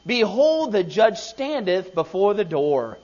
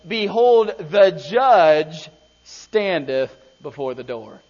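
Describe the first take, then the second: First: Said in the usual way. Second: "Behold" said louder with a falling tune, "the judge standeth before the door" drawn out slowly; emphatic slow reading. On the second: Shown as a demonstration. Preacher points the church to the verse, with "Behold" said loud and the rest slowed right down. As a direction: lean hard on "Behold" and stretch out the rest. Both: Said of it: "Notice what it says".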